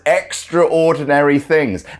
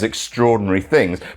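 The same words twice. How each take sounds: First: Extra and ordinary are said as separate words. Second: Extraordinary is run together as one word. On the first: The things are very ordinary. "constantly pronouncing it" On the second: The things are remarkable. "the extraordinary man who does extraordinary things"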